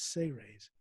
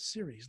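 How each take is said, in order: First: It sounds like the two words say rays. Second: It sounds like the word series. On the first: The speaker calls it right. "It's Say Rays" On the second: The speaker calls it wrong. "even though it's spelled like it sounds series, like baseball series. It's not"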